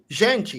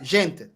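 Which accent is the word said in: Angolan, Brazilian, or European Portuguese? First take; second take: Brazilian; Angolan. First: It is said with a Brazilian Portuguese accent. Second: It is said with an Angolan Portuguese accent. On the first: "Brazilians will say gente" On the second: "Angolans will be like gente"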